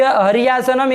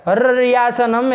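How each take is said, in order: First: Said in the usual way. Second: हर रियासनम with a long rolled double r; doubled r. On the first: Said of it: "जहाँ द्वित्व नहीं करेंगे". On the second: Shown as a demonstration. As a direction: hold and trill the r in हर रियासनम. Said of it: "ऐसे करिए".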